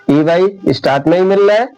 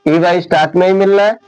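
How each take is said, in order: Both takes have the same delivery.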